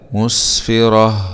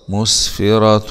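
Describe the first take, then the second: First: The word ends with a stopped h sound. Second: The word ends with a nasal -tun ending. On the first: The reader pauses on the word. "نقف عليها بالسكون، نقف عليها بالهاء" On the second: The word is joined to the next word. "تاء ضمتين مع الإخفاء في حالة الوصل"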